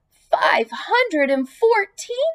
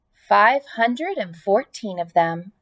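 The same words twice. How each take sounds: First: High, slow, amazed question; astonished. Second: Said in the usual way. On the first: Acted. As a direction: stretch out Five hundred and fourteen in disbelief. Pig amazed at number.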